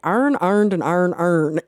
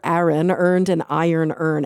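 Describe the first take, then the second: First: The words share nearly the same vowel sound. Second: Each word keeps its own distinct vowel sound.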